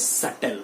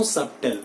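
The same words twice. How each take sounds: First: "subtle" said SUT-tl; silent b. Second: "subtle" with the b heard; lower, SUB-tl for "subtle"; wrong subtle. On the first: Teacher gives students the correction, b silent. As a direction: leave the b out of "subtle". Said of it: "it is subtle". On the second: Teacher rejects the mistake, b sounded. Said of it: "no subtle". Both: Shown as a demonstration.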